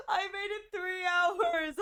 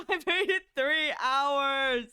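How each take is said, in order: First: Whiny lament. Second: Laughing lament. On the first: Repeated lament. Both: Real, not acted.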